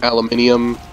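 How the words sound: The word is said the British way. This is how it is said abroad. "other places like Australia and I think the U K, it's pronounced aluminium"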